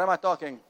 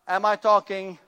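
First: The question sounds impatient and uncomfortable. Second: The question sounds warm and welcoming. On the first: The speaker wants the conversation to end soon. The speaker calls it wrong. "Hey, you better hurry up. I want to get out of here. I'm uncomfortable" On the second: The listener is welcome to stay and talk. The speaker calls it right. "is my posture welcoming?"

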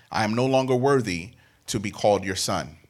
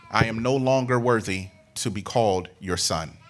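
Both takes have the same delivery.

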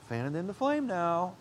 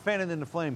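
First: It is said in a guilt-tripping, pressuring tone. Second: It is said in a critical, scolding tone.

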